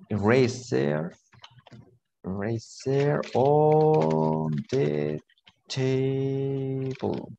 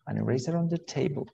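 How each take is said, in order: First: Very slow, words drawn out; drawn-out teacher dictation. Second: Said in the usual way. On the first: Shown as a demonstration. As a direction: stretch each word as if writing it. Teacher spells out sentence while writing.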